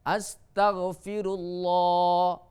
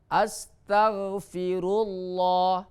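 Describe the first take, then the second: Both takes have the same delivery.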